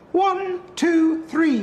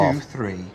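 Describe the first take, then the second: First: It is said in a raised-pitch voice. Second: It is said in a normal male voice.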